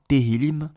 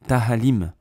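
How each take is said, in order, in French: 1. Le mot se prononce te-hil-lim. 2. Le mot se prononce ta-ha-lim. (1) "prononcer convenablement Tehillim" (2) "Un rabbin qui sait même pas prononcer convenablement"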